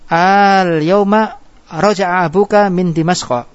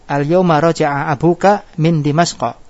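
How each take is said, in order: First: The opening vowel is drawn out long. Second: The opening vowel is short. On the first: It asks whether the father returns today. "Sekarang dimasukkan ke masukan hamzah istifham" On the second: It states that the father returns today. "Hari ini bapakmu kembali dari Syria"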